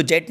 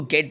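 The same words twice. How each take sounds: First: The wrong way: "जेट" with a j; "जेट" starting like "jam"; wrong "jet" sound. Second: "गेट" with a hard g, as in go; the right way: "गेट" with a hard g; "गेट" opens on a hard g like "gun". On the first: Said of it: "इसको जेट नहीं". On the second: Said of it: "इसको गेट बोला जाएगा". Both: Shown as a demonstration.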